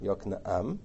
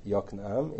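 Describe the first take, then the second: First: "Yoknaam" in three syllables, yok-na-AM; correct pronunciation. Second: "Yoknaam" squeezed to two syllables, YOK-nam; wrong pronunciation. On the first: Teacher correcting the name, careful "Yoknaam" as yok-na-AM. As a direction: say "Yoknaam" with the final AM separate and stressed. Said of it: "it's not Yoknaam, it's". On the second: Teacher showing what it's not, "Yoknaam" as YOK-nam. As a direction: say "Yoknaam" wrongly, first syllable stressed, final aa shortened. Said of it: "it's not Yoknaam". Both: Shown as a demonstration.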